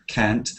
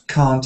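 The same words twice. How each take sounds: First: It is said with a northern English accent. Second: It is said with a southern English accent. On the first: "In the north of England and in Scotland and in North America, it's usually ca, can't" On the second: "can't is a useful way of changing the sound from can to can't"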